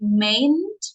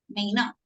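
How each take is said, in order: First: The two words are contracted into one syllable group. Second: The two words are said fully and separately. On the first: The speaker calls it wrong. "People don't say mayn't" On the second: The speaker calls it right. "it's a normal thing"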